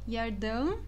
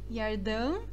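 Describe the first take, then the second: Both takes have the same delivery.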